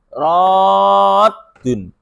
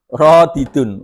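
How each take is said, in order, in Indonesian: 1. Dua bunyi d menyatu menjadi satu d ganda. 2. Sebuah vokal memisahkan dua bunyi d. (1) "Ditasjid lagi"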